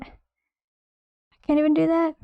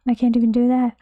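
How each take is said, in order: First: Mock despair. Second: Said in the usual way.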